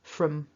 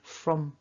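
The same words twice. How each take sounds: First: The word is said with a reduced weak vowel. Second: The word is said with a reduced weak vowel.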